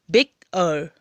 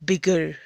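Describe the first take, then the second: First: "बिग अर" as two separate beats, "बिग", then "अर"; split into syllables. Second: Said in the usual way. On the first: Shown as a demonstration. Teacher showing the two syllables of bigger, "बिग अर" split apart. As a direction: break "बिग अर" cleanly after "बिग". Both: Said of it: "two syllable हो गया".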